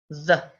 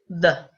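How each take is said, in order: First: The vowel is a short, weak uh sound. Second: The same.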